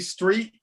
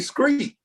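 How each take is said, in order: First: The word begins with a clear 'str' sound. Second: The word begins with an 'scr' sound. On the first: This is how people outside the South say it. "we don't say street" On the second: This is how people in the South say it. "we say screet"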